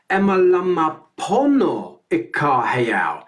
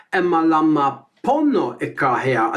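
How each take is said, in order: First: Each syllable spelled out slowly; slow, deliberate teaching read; slow spoken lyric. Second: Said in the usual way. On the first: Shown as a demonstration. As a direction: speak the lyric slowly and carefully for learners. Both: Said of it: "the third line is very similar".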